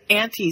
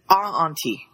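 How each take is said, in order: First: The word is said with its usual syllables. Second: The word is said with an extra syllable. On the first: The speaker calls it right. "instead of saying auntie" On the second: The speaker calls it wrong. "It puts an extra syllable in it"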